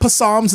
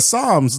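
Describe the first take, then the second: First: The initial P sound is pronounced. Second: The initial P sound is silent. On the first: The speaker calls it wrong. "I said, ps-" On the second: The speaker calls it right. "but it's like psalms"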